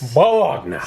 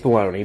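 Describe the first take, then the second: First: It is said as spelled, ending in a nya sound. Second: It is said like baloney, ending in an ee sound. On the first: "If it's spelled that way, I'm gonna say it that way" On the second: "It's bologna"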